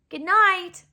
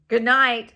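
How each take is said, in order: First: It is said in the mother's voice. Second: It is said in the father's voice.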